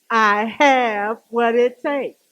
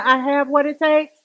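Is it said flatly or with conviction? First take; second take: with conviction; flatly. First: It is said forcefully, with strong conviction. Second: It is said plainly, without strong conviction.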